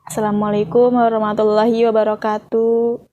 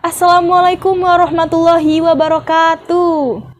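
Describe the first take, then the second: First: The greeting is said on a flat pitch. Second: The greeting is said with a swinging pitch. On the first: The speaker calls it wrong. "nggak mungkin kan ya, cuman kayak gini aja" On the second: The speaker calls it right. "intonasinya tuh harus gini ... ada nada yang diayunkan"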